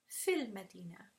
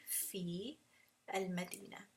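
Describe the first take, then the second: First: "Fil Madina" run together with a short i in "Fil"; joined, mad dropped. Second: Long held "fi", pause, then "al-Madina"; each word separately. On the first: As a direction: join it as one "Fil Madina", no long vowel. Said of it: "See how the mad disappears when I join them together". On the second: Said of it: "if I was to say each letter separately". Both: Shown as a demonstration.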